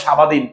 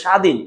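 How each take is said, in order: First: সাবাদিন said "sha-ba-din", the ব sounded; three syllables in সাবাদিন, as if read letter by letter; spelling pronunciation. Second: স্বাধীন said as "shadhin", with a silent ব; correct pronunciation. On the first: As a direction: voice the ব in সাবাদিন as a full "ba". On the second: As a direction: say স্বাধীন as two syllables, sha-dhin. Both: Shown as a demonstration. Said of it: "এটার উচ্চারণ তো সাবাদিন না".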